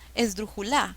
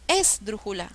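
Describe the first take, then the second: First: The stress is on the fourth syllable. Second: The stress is on the first syllable.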